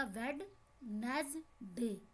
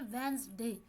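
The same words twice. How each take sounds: First: Slow "वेडनेसडे" with every letter sounded, d included; broken into parts. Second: "वेडनेसडे" run together as "Wensday", d silent; fluent pronunciation. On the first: Teacher to students, showing the letter-by-letter "वेडनेसडे". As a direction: drag out "वेडनेसडे" syllable by syllable. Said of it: "तोड़ के आप पढ़ेंगे तो ये बनेगा". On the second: Teacher to students, giving the fluent "वेडनेसडे" with silent d. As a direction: say "वेडनेसडे" smoothly, skipping the d. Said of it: "रवानगी के साथ हम इसको क्या पढ़ते हैं". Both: Shown as a demonstration.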